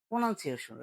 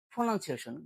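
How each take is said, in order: First: Said in the usual way. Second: "প্রনাউন্সিয়েশন" opened with a puffed P; aspirated P. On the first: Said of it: "এটা ভুল উচ্চারণ". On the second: Shown as a demonstration. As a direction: start "প্রনাউন্সিয়েশন" on a breathy ফ. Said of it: "right accent হলো". ("প্রনাউন্সিয়েশন"-এর প মহাপ্রাণ)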